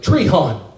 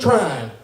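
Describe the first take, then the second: First: The name is split into separate vowel sounds. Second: The name sounds like the word trying. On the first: This is how outsiders say the name. The speaker calls it wrong. "they mispronounce it. But everybody goes" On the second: This is how locals say the name. The speaker calls it right. "I'm from Trine. Like I'm trying"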